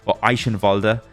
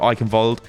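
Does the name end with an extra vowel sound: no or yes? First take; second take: yes; no. First: The name ends with an extra vowel sound. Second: The name ends on the final consonant. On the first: The speaker calls it right. "as we should say it" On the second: The speaker calls it wrong. "we're all idiots, so we say Eichenwald"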